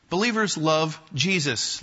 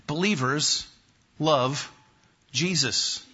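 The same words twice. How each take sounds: First: Said in the usual way. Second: "Believers... love... Jesus", a pause after each word; deliberate, separated words in "Believers love Jesus"; word-by-word announcement. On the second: Real, not acted. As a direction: set out "Believers", "love", "Jesus" one at a time. Announcing the first creed.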